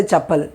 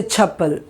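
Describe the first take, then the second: First: "chappal" with an unaspirated ch; no puff of air at the start of "chappal"; ordinary ch. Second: "chappal" with pressure on the ch; aspirated ch. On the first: Teacher shows what you don't say, "chappal" with plain unaspirated ch. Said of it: "You don't say chappal". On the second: Teacher shows the English-style way, "chappal" with aspirated ch. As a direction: push air into the first sound of "chappal". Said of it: "you say chappal". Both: Shown as a demonstration.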